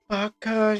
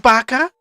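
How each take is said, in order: First: It is said softly with little energy. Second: It is said loudly with lots of energy. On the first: "they're gonna be more quiet" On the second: "she has energy energy within the character"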